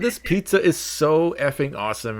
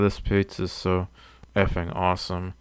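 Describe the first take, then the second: First: The words are spoken clearly and confidently. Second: The words are mumbled quietly and indistinctly. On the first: The speaker feels confident. "that's literally how I talk when I'm in suit" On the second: The speaker feels self-conscious. "I mumble a lot. I don't talk like I'm talking right now when I'm out of suit. I'm usually like this"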